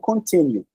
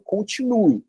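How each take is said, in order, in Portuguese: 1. Ela é dita com pronúncia inglesa. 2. Ela é dita com pronúncia portuguesa. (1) "e não continue" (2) "a gente está falando continue"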